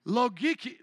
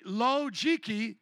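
First: "logiki" with a hard g, lo-GHEE-kee; hard-g pronunciation. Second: "logiki" with a j sound, lo-JEE-kee. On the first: Preacher showing a congregation a Greek word, hard-g "logiki". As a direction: say "logiki" with g as in geese. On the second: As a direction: stretch "logiki" slowly, g as in gem. Says the Greek word two ways. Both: Shown as a demonstration.

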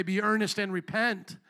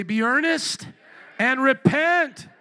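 First: Said in the usual way. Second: Slow, loud, emphatic cry; like you mean it. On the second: Shown as a demonstration. Preacher showing the congregation how to declare it. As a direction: hit repent hard and stretched. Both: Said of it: "say it like you mean it".

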